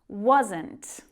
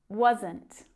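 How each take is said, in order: No difference in how they are said.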